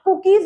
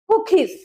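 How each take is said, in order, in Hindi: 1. पहला k अल्पप्राण है, इसमें हवा नहीं है। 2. पहले k में हवा का झोंका है। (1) "आप कुकीज नहीं बोल सकते हैं" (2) "उसमें ख का भी साउंड आता है"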